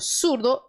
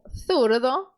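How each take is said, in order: First: The word begins with an 's' sound. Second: The word begins with a 'th' sound. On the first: "pronunciado na América como surdo" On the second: "lá na Espanha como zurdo"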